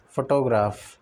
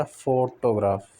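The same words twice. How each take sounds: First: "photograph" said evenly, without a strong first syllable; misplaced stress. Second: "photograph" slowly, leaning on long "फो"; first-syllable stress. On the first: Teacher shows the mistake, "photograph" without first-syllable stress. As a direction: take the weight off "फो" in "photograph". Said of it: "नहीं होता". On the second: Teacher corrects learners, "photograph" stressed on "फो". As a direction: stretch and stress the start of "photograph". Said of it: "stress pattern words". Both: Shown as a demonstration.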